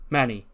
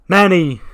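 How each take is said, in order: First: Level, contained call of his name; restrained address. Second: High, loud yell of the name; exasperated shout. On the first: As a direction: say the name evenly, holding back. Dio's first, restrained call to Manny. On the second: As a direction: shout it to cut him off. Dio's exasperated second call. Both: Acted.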